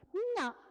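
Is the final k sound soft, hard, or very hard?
hard. The final k is cut off hard. This is how Makassar speakers say it. "Tapi tanya mungkin orang Makassar, dia pasti bilang minyak"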